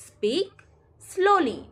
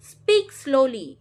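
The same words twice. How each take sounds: First: Rising "Speak", pause, high falling "slowly"; chunked teaching repeat. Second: Said in the usual way. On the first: Shown as a demonstration. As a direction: split "Speak ... slowly" word by word. Teacher repeats phrase broken up.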